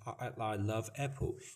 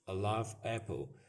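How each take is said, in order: First: It is halting, with repeated hesitant starts. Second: It is smooth, without any hesitation.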